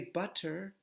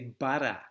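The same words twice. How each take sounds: First: British-leaning accent, with a clear T sound. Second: Australian accent, with no R at the end. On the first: "if you use the T, you're starting to go a little bit British" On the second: "Australians don't pronounce R's, so they say butter"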